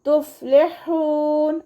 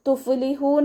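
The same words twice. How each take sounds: First: തുഫ്ലിഹൂൻ chanted slowly with a throaty ഹ; correct recitation. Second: തുഫ്ലിഹൂൻ spoken with a wrong ഹ sound and no half sukoon; the mistaken തുഫ്ലിഹൂൻ; wrong pronunciation. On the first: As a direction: sing തുഫ്ലിഹൂൻ high and slow, ഹ from the throat. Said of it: "അതുപോലെ ഓതുക". (ശരിയായ തുഫ്ലിഹൂൻ പാരായണം) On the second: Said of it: "എന്ന് ഓതരുത്". (തെറ്റായ തുഫ്ലിഹൂൻ ഉച്ചാരണം) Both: Shown as a demonstration.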